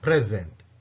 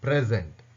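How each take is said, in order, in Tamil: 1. அழுத்தம் முதலாவது அசையில் உள்ளது. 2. அழுத்தம் முதலாவது அசையில் உள்ளது.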